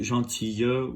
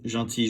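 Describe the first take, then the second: First: The final Y sound is strong and exaggerated. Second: The final Y sound is light and barely heard. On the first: "If you want to pronounce it gentille with" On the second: "or just gentil"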